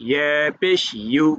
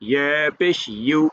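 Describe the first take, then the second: No difference in how they are said.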